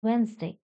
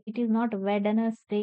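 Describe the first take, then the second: First: Wednesday said as wens-day, silent d; right pronunciation. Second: Spelled-out wrong Wednesday; every letter sounded in Wednesday; wrong reading. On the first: Teacher models the right way to say Wednesday. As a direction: drop the d in Wednesday. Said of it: "D is silent here". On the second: Teacher shows the wrong way to say Wednesday. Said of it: "It's not like this". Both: Shown as a demonstration.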